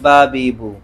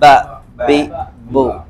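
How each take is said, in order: First: The b is said plainly without an echo. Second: The b is held and released with an echo. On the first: This is how it is said in our language. "हमारी भाषा में इसको सिर्फ सिंपल बोल देते हैं" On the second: This is how it is said in Arabic. "अरबी में इसको पकड़ के बोलते हैं"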